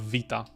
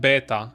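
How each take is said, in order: First: It is said with the modern everyday pronunciation. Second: It is said with an old, ancient-style pronunciation. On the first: This is how people say it today. "instead of vita" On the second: The speaker learned the old pronunciation first. "I would have said beta"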